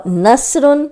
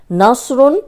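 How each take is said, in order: First: نصرن with a light whistling س, slowly; whistling seen. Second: ناصرن with a heavy thick ص; heavy saad. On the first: Teacher contrasting letters, a light whistling س. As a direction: keep the س of نصرن thin. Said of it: "سین ہے". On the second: Teacher contrasting letters, a heavy ص. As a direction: weigh down the ص in ناصرن. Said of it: "صاد موٹا ہے". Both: Shown as a demonstration.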